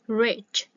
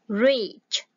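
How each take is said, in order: First: The vowel is a short, lax ih sound. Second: The vowel is a tense ee sound. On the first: The speaker calls it right. "mà là ie" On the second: The speaker calls it wrong. "không phải là rich, không phải là y ha"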